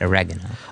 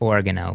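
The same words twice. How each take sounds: First: The word is said in the usual standard way. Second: The start sounds like the local way of saying Oregon. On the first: The product is made outside the country. "then you go with the straight oregano" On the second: The product is made in Oregon. "if they make it on in Oregon, then you have to pronounce it oregano"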